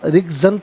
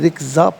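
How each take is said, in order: First: The word ends with an '-an' sound. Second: The word ends with a long 'a' vowel. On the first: The reading continues without stopping here. "रिक्ज़न पढ़ेंगे" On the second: The reader stops at this word. "वफ़ की सूरत में रिक्ज़ा पढ़ा जाएगा"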